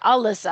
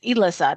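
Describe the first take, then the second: First: The name begins with a weak 'uh' sound. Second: The name begins with a clear 'eh' sound. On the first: The speaker calls it wrong. "I didn't want people to call her Alyssa" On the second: The speaker calls it right. "I wanted her name to be pronounced Elissa"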